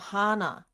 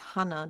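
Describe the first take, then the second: First: A sound in the name is held long. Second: The sounds of the name are kept short. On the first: The speaker calls it wrong. "they go, oh, Hana. Like they hold the" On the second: The speaker calls it right. "no, it's Hana"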